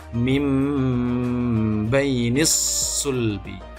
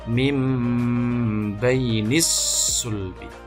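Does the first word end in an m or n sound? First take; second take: m; m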